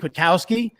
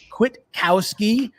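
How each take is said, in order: First: The name is said quickly, syllables run together. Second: The name is said slowly, syllables kept apart. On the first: The speaker calls it wrong. "I said it real fast and just kind of smashed it all together" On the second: The speaker calls it right. "I say slower"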